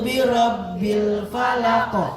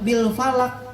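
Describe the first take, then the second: First: The final q is released with a bounce. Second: The final q is held without a bounce. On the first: The speaker calls it right. "Harus pantul Bu" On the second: The speaker calls it wrong. "Enggak bisa"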